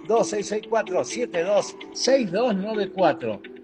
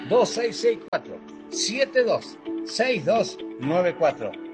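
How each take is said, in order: First: The number is said fast. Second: The number is said slowly.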